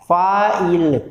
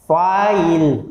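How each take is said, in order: No difference in how they are said.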